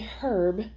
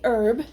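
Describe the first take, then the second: First: The word starts with an audible H sound. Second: The word starts with a vowel sound, no H. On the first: This is how non-Americans say it. "they pronounce the H in herb" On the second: This is how Americans say it. "We say herb"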